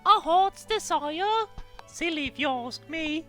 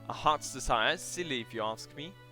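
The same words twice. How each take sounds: First: It is read in a put-on female character voice. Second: It is read in the speaker's plain voice.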